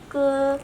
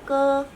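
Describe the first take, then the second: No difference in how they are said.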